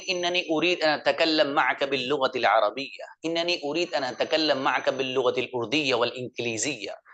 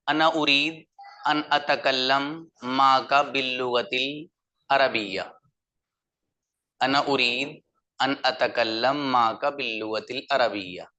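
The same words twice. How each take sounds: First: Arabic with proper Arabic sounds and lilt; native Arabic accent. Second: Arabic read in a flat Urdu accent; flat Urdu-style Arabic. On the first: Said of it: "इनके मुकाबले में अच्छा लगा होगा". (अरबी लहजे में अरबी) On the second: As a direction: say the Arabic like a plain Urdu speaker, no Arabic flavour. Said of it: "मिजाज के मुताबिक नहीं बोला गया". (उर्दू लहजे में सपाट अरबी) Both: Shown as a demonstration.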